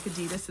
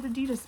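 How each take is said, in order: First: Adidas said AH-dee-dahs, stressed on the first syllable; original pronunciation. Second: Adidas said uh-DEE-dus, stressed on the middle syllable; habitual pronunciation. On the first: Seller citing the proper brand name, Adidas as AH-dee-dahs. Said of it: "is actually pronounced Adidas". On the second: Seller admitting a lifelong habit, Adidas as uh-DEE-dus. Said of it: "I've said Adidas my entire life". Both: Shown as a demonstration.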